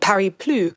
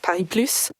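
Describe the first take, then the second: First: The final S of Plus is silent. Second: The final S of Plus is pronounced. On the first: The name means Paris no more. The speaker calls it wrong. "with a silent S" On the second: The name means Paris plus more. The speaker calls it right. "important that we pronounce the S"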